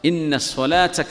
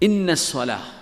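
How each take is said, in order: First: The phrase ends with a t sound. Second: The phrase ends with a vowel. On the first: The reading continues into the next word. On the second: The word stands alone.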